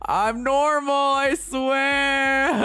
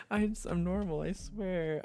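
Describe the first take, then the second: First: Squeaky high, loud "I'm normal"; shrill joking insistence; mock-insistent high. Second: Said in the usual way. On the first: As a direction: overdo the protest, voice jumped up high. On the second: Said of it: "I'm just a little weird".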